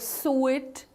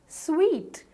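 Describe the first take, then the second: First: It is said in a way unlike 'sweet'. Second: It is said to sound exactly like 'sweet'. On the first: The speaker calls it wrong. "Do you call it a suite or a suite or anything? Not really" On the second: The speaker calls it right. "The correct pronunciation is sweet"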